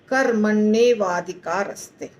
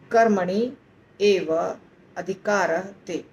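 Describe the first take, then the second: First: The four words are fused into one word. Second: The four words are said as separate words. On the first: "चारों का संधि है। तो क्या बन जाता है" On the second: "चार शब्द"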